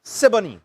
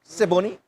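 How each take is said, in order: First: "Siboney" as SIB-uh-nee, middle vowel reduced; "Siboney" with a light uh in the middle, falling; corrected name. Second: "Siboney" as see-BO-nee, a clear O in the middle; his own way. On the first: Corrected on the name, "Siboney" with a weak uh. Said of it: "Is it Siboney or Siboney". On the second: Checking the club's name, "Siboney" with a full O. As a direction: say "Siboney" with a full O, rising like a question. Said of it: "I'm saying Siboney". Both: Shown as a demonstration.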